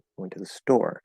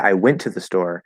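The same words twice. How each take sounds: First: The strongest stress falls on "store". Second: The strongest stress falls on "went". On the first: The place was the store, not elsewhere. "and then store" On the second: The action was only going, nothing else. "you're giving super stress or focus word stress to went"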